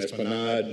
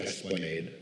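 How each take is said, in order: First: The word is said with Spanish pronunciation. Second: The word is said with English pronunciation.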